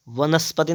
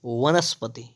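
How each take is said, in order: First: वनस्पति starting with b; firm lips opening वनस्पति; wrong pronunciation. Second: वनस्पति starting with v; rounded w-like v opening वनस्पति; correct pronunciation. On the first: Teacher showing the error, वनस्पति with b. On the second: Teacher correcting, वनस्पति with v. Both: Shown as a demonstration. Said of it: "वनस्पति नहीं".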